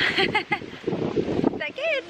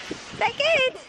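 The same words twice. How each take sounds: First: Very slow, high, stretched good; drawn-out coo. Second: Said in the usual way. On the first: Real, not acted. Asking the pet if the treat is good, slow coo.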